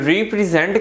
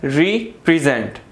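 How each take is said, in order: First: रिप्रेजेंट broken into re, pre, zent; wrong three-way split. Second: रिप्रेजेंट as re, then present; two-part split. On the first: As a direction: separate all three syllables of रिप्रेजेंट. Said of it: "रिप्रेजेंट नहीं है". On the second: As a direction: pause after RE and run present together. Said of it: "ये क्या है". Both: Shown as a demonstration.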